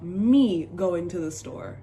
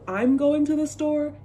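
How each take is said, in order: First: Slow, demonstrated "Me" in place of I, stretched out; patois example. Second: Said in the usual way. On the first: Shown as a demonstration. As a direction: lean slowly on "Me" as a patois example. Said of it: "not real Jamaican patois". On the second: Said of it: "Instead of".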